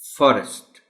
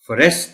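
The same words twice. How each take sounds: First: The stress is on the first syllable. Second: The stress is on the second syllable. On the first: The speaker calls it right. "Primary stress है वो एफ पर है" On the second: The speaker calls it wrong. "आप forest नहीं कह सकते"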